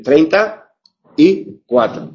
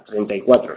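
First: TREINTA, then a pause before Y CUATRO; separate words. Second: TREINTA Y CUATRO run together, no gap; lower, unbroken "treinta y cuatro"; one joined word. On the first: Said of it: "Si lo escribimos separado". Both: Shown as a demonstration.

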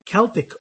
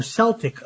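First: "Celtic" said KEL-tik; hard K. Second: "Celtic" said SEL-tik; "Celtic" with a soft C, SEL-tik. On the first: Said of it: "a combination of K sound". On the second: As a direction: begin "Celtic" with an S. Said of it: "and S sound". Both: Shown as a demonstration.

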